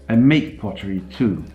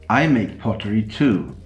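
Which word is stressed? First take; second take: make; I. First: The word make carries the main stress. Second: The word I carries the main stress. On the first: The speaker does more than sell pottery. "I don't only sell it" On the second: Another person also makes pottery. "You're not the only one who makes pottery"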